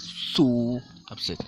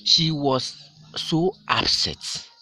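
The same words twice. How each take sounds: First: Slow, so upset drawn out; teacher answering how upset she was; stress on so. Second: Very slow, higher and louder, so stretched out; teacher dramatizing the intensifier so; stress on so. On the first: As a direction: lean hard on so. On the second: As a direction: drag out so to show how upset. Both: Shown as a demonstration. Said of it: "the so over there is emphasizing".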